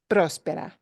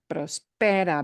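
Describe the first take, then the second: First: The stress is on the first syllable. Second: The stress is on the second syllable. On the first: The speaker calls it right. "It's próspera" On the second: The speaker calls it wrong. "Otherwise, it would be prospera, prospera, but nobody pronounces that word as prospera"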